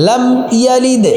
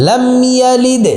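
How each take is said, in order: No difference in how they are said.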